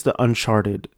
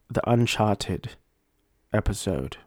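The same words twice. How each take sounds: First: Said in the usual way. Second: Softer mock-British accent, R dropped in Uncharted; put-on British accent. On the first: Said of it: "speaking in a British accent". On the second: Host correcting himself on the episode title, in a put-on British accent. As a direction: slip into an attempted British accent. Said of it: "I will be speaking in a British accent".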